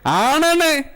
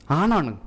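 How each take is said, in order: First: ആണാണ് said high and loud, stern; mother's stern voice. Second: Said in the usual way. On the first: Retold or imitated. Mother telling her son he is a man, high and stern. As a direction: hammer ആണാണ് like a scolding mother. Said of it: "ഉമ്മ ചെറുപ്പത്തിലേ പറഞ്ഞിട്ടുണ്ട്".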